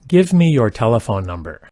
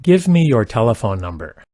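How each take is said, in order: Both takes have the same delivery.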